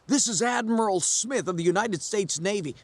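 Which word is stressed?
none. Admiral is not specially stressed.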